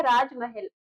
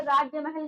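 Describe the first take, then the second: First: राजमहल as one word, raaj-mahal; correct form. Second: राज्य महल said as two words, raajya mahal; wrong form. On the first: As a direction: say राजमहल with a short raaj, joined. (राजमहल को एक शब्द की तरह जोड़कर बोलिए) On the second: (राज्य महल को दो अलग शब्दों की तरह बोलिए) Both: Shown as a demonstration. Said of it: "राज्य महल ना होकर के".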